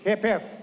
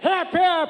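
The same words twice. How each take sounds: First: It is said at a normal volume. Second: It is said as loud as possible.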